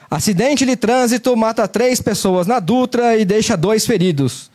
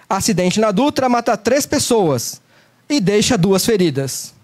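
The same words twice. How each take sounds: First: Slow headline read with rising and falling tune; newscaster intonation. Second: Slow headline, pause before "feridas"; strategic pause. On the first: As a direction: read it like a radio headline, slowly. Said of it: "voz de locutor ... sobe e desce". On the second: Teacher demos a news headline with a pause before the key word. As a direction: hold a pause, then land on "feridas". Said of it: "pausas estratégicas". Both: Shown as a demonstration.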